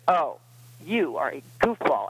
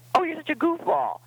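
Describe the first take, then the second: First: It is said in a harsh, condemning tone. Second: It is said in a playful, affectionate tone.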